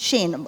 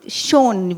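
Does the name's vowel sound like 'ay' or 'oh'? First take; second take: ay; oh. First: The name is said with an 'ay' vowel. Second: The name is said with an 'oh' vowel. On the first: The speaker calls it right. "although it's pronounced Shane" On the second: The speaker calls it wrong. "would you call it Shone"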